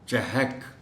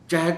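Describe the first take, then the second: First: The h is followed by a short a. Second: The h has no vowel after it. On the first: The speaker calls it right. "हे पर ज़बर है" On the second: The speaker calls it wrong. "चहक नहीं"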